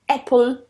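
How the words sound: The first vowel is open, like 'ah'. This is a standard British pronunciation. "if you're aiming for a standard British accent, I mean, R P, then apple would be the one to use"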